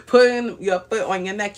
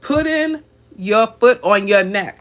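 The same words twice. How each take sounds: First: Said in the usual way. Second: Slow, louder, relishing each word; savouring the phrase. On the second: Retold or imitated. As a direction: lean into the viewer's words, slowly. Reads viewer's comment with relish.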